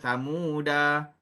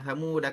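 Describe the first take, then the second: First: The final vowel is long, said before a stop. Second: The final vowel is short, flowing into the next word. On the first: The reader stops on this word. "kalau berhenti kita kena sebutlah samuda" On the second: The reading continues without stopping. "bacaan dia ialah pendek"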